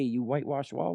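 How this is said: It is said in a mild, polite way.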